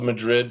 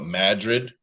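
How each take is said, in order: First: The name is said the usual, standard way. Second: The name is said the local Iowa way. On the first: This is how the name is written. "it's spelled Madrid" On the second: This is how the locals say it. "but we call it Madrid"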